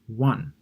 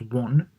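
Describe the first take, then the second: First: The vowel sounds like the one in 'sun'. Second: The vowel sounds like the one in 'on'. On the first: It is the past tense of win. "the past of win, is pronounced won" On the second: It names the Korean currency. "Korean currency is pronounced won"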